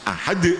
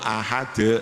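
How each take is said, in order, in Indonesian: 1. Huruf d terakhir ditekan dan dipantulkan keluar. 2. Huruf d terakhir berakhir datar tanpa lepasan. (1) "Harus ahad" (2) "bukan qalqalah itu, ya. Namanya pepat itu"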